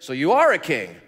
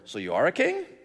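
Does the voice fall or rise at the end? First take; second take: fall; rise. First: It is said as a statement, falling. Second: It is said as a question, rising.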